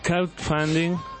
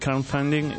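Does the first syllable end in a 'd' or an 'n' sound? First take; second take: d; n. First: The first syllable ends with a 'd' sound. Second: The first syllable ends with an 'n' sound. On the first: The speaker calls it right. "Un poquito mejor, sí, muy bien" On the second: The speaker calls it wrong. "En lugar de crowd, está diciendo crown"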